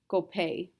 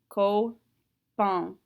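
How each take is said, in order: First: The word ends in a plain vowel. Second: The word ends in a nasal vowel. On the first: The speaker calls it wrong. "If that wasn't a nasal" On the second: The speaker calls it right. "pronounce that one single nasal"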